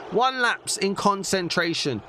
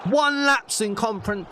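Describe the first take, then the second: First: Said in the usual way. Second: Fumbling the word conference; flustered slip on conference; tongue-tied. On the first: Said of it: "I can't even speak". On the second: Real, not acted. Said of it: "Oh, I can't even speak".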